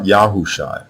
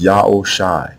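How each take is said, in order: First: "Yahushai" slowly, with HOO in the middle; wrong name pronunciation. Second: "Yaoshai" slowly as yah-oh-shy, no H; correct name pronunciation. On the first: Teacher rejecting a way to pronounce Hoshai's name, wrong form. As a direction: say "Yahushai" as ya-hoo-shy, drawn out. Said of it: "the way you pronounce Hoshai's name is not". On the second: Teacher showing how to pronounce Hoshai's name, correct form. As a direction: glide from Ya into O in "Yaoshai", ending on shy. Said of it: "So now the way you pronounce Hoshai's name". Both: Shown as a demonstration.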